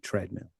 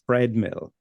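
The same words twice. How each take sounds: First: The word begins with a plain 't' sound. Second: The word begins with a 'th' sound. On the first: The speaker calls it right. "It should be treadmill" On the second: The speaker calls it wrong. "which is not right"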